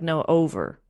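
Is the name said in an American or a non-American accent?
American. It is said in an American accent. "in an American accent, ... it'd be like Noah Over"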